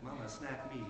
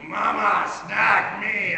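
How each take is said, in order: First: It is said sweetly and calmly. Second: It is said in a frightening demon voice.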